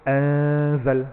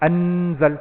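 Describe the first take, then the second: First: The n is hidden and unclear, nasalised. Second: The n is pronounced fully and clearly. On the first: The speaker calls it right. "dia tak original" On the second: The speaker calls it wrong. "jangan baca anzal, tak tepat lah"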